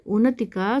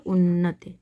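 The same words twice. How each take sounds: First: उन्नति said with a single short n; don't hold the n in उन्नति; wrong form. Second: उन्नति with a long double n; correct form. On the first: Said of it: "का शुद्ध रूप हो जाएगा". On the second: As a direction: hold the n in उन्नति. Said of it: "शुद्ध रूप हो जाएगा". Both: Shown as a demonstration.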